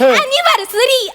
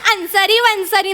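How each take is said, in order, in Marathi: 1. तो पूर्ण शब्द 'anniversary' असा म्हटला जातो. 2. तो यमकासारखा 'ansari vansari' असा विकृत करून म्हटला जातो. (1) "अॅनिव्हर्सरी असं असतं" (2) "ते अन्सारी वन्सारी नसतं"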